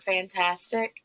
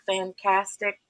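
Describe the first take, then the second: First: The t and c sounds are said clearly. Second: The t and c sounds are left out. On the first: This is the normal adult way of saying it. The speaker calls it right. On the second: This is how it was said as a small child. The speaker calls it wrong.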